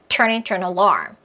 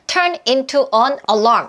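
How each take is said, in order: First: Only turn and alarm are strongly stressed. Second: Every word gets about equal stress. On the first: The speaker calls it right. "Turn alarm 이런 느낌으로 오버하자면 이렇게까지 들릴 수 있어요" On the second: The speaker calls it wrong. "우리처럼 turn into an alarm 이렇게 하지 않아요"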